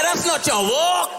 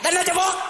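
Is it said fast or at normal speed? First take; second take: normal; fast. First: It is said at a normal speed. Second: It is said very fast.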